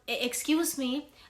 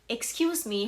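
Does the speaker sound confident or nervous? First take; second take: nervous; confident. First: It sounds hesitant and rushed, with a stutter. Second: It sounds calm, slow and steady. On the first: The speaker calls it wrong. "when I was talking fast and using a lot of filler words" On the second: The speaker calls it right. "I sound more confident"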